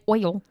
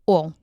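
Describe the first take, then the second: First: The vowel glides from oh to ee. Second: The vowel is one flat sound, like ol. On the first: This is how others say it. "I don't say oil" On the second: This is the speaker's own Southern way. "It's like O O L"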